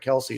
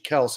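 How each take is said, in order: First: The name is said as two syllables. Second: The name is said as one syllable. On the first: The speaker calls it wrong. "and not Kelsey" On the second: The speaker calls it right. "it's actually Kels"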